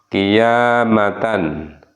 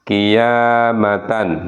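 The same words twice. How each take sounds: Both takes have the same delivery.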